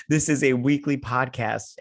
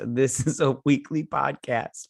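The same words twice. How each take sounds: First: Said in the usual way. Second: Tipsy, slow and slurring. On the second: Real, not acted. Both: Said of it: "I'm so drunk right now".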